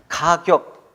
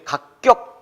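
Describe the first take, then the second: First: The second syllable starts with a plain consonant. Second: The second syllable starts with a tense consonant. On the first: The speaker calls it right. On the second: The speaker calls it wrong.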